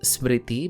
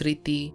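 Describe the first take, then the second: First: The name begins with an 'sm' cluster. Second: The name begins with a plain 's' sound. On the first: This is the Sanskrit form. "the Sanskrit sound" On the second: This is the Bengali form. "Bengali ko Sanskrit ke consonant clusters काफी rough लगते हैं, so it twists the pronunciation to simplify it"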